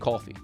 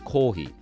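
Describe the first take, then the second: First: It is pronounced with English sounds. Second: It is pronounced with Japanese sounds. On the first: The speaker calls it wrong. "You can't say coffee" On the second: The speaker calls it right. "It's kohi"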